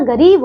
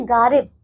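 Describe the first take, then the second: First: गरीब said with a short a in the first syllable; correct reading. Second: गारिब said with a long stretched aa in the first syllable; misspelled reading. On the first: Teacher gives the children the correct word, short a. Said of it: "ये गरीब नहीं होता, गरीब होता है ना". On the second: Teacher reads the misspelled word to the children, long aa. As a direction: read गारिब as the wrong spelling, long aa. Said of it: "ये गरीब नहीं होता". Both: Shown as a demonstration.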